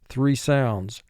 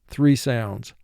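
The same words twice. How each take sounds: No difference in how they are said.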